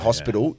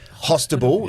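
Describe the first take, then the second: First: The word is said with its standard pronunciation. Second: The word is said with a childlike mispronunciation. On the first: The child has grown up and learned the word. "when your kid says a word correctly" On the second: The child has not yet learned the word. "You want them to say it wrong"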